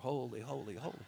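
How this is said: It is said in a bored, tired way.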